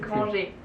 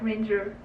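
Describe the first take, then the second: First: The name is pronounced the Swiss way. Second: The name is pronounced the English way. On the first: "in Swiss it's" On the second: "in English it's like"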